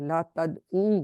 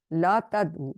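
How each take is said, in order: First: "لا تدعو" slowly, with a drawn-out final oo; long final vowel. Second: "لا تدعو" with a short final u; short final vowel. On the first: Teacher models the plural command, long final vowel in "لا تدعو". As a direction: stretch the last u of "لا تدعو". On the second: Teacher models the singular command, short final vowel in "لا تدعو". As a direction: keep the last u of "لا تدعو" brief. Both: Shown as a demonstration. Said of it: "اس difference سے ہم پڑھیں گے واحد جمع کو".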